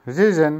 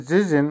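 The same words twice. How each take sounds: The two takes are said the same way.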